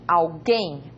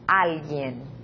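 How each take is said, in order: First: The stress is on the last syllable. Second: The stress is on the first syllable. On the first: "En portugués, A última sílaba é a forte" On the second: "En español"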